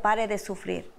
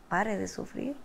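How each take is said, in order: First: Said in the usual way. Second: SUFRIR lifted at the end as a soft question; puzzled questioning echo. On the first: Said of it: "Decía". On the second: Retold or imitated. Wife reacting to the program's name, softly questioning, rising on SUFRIR. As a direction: softly repeat it, turning SUFRIR upward in doubt. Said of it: "yo me quedé".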